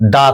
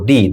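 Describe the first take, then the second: First: The word ends in a short 'uh' vowel. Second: The word ends in a long 'ee' vowel. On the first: The next word starts with a consonant sound. "কখন TH দা করব" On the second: The next word starts with a vowel sound. "দি বলবো"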